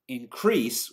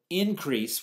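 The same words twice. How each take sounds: First: InCREASE, stressed on the second syllable; "increase" with the stress at the end. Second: INcrease, stressed on the first syllable; "increase" with the stress up front. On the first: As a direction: hit the "crease" of "increase", as a verb. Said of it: "stressed on the second syllable". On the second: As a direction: hit the "in" of "increase", as a noun. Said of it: "on the first syllable". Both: Shown as a demonstration.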